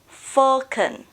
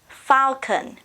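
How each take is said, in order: First: British accent, first vowel an 'o' sound. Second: American accent, first vowel an 'ah' sound. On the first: "In British, we say O" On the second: "In American, we say ah"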